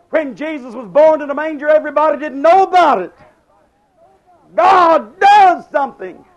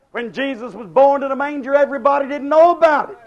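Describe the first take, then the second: First: Louder and higher, swelling to a cry; building preaching. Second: Said in the usual way. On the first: Acted. Preacher repeating his point to the congregation, building loud. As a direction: lift it the second time like a revival peak. Sermon line repeated and built.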